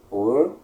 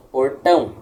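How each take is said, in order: First: Portão split into por, then TÃO after a long pause; teacherly Portão, held apart, final syllable strongest; stressed last syllable. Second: Said in the usual way. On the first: Shown as a demonstration. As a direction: break Portão in two, leaning on TÃO. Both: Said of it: "É uma sílaba tônica no tão".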